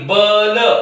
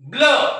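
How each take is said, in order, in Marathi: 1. एक पूर्ण स्वर ब आणि ल यांना वेगळे करतो. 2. ब थेट ल ला जोडला जातो. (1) "ते याला ब म्हणतील आणि याला ल म्हणतील बल. पण नाही, हा बल नाही" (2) "हा ब अर्धा आहे आणि ल पूर्ण आहे"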